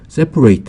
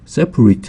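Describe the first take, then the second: First: The final syllable sounds like 'eight'. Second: The final syllable sounds like 'eat'. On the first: It means to divide something. "eight로 발음되면 명사가 되겠습니다" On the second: It means apart or divided. "eat로 발음되면 이제 형용사가 되겠고요"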